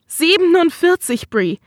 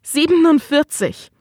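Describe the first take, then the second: First: Much higher, desperate repeat; anguished outburst. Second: Pitched-up, stunned figure; rising anguish. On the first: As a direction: throw the number out in despair. Husband repeats, more upset. (verzweifelt, viel höher) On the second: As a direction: let the number rise. Husband's anguished outburst. (fassungslos, höher) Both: Acted.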